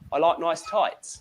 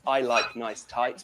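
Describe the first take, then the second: First: It is said in a Cockney accent. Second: It is said in a standard British accent.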